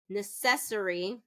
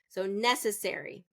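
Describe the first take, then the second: First: The stress is on the second syllable. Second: The stress is on the first syllable. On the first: The speaker calls it wrong. "where it's second syllable stress" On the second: The speaker calls it right. "necessary is going to be first syllable stress"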